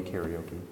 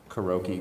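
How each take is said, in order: First: Karaoke starting "care-ee", as care-ee-OH-kee; alternative pronunciation. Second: Karaoke starting "kuh-ROH", ending "kee"; alternative pronunciation. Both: Shown as a demonstration. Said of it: "Tomato, tomato".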